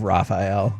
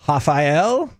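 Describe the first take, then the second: First: The name is pronounced the English way. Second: The name is pronounced the German way. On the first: The speaker calls it wrong. "Instead of Raphael" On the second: The speaker calls it right. "I will say it how I was told to say it"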